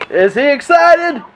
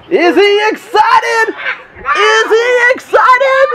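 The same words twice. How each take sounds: First: Said in the usual way. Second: High, slow, loud hype call; hyped-up announcer. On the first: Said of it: "repeated with rising hype". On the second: Shown as a demonstration. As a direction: pump up the crowd. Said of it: "building play-by-play hype".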